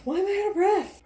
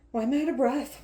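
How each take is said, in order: First: High, loud wail of complaint; over-the-top exasperated outcry; escalated exasperation. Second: Loud, higher complaint; raised-voice exasperation; exasperated question. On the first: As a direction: blow it up into a high shout. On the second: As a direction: demand it loudly, a little worked up. Mock exasperation at being winded. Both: Real, not acted.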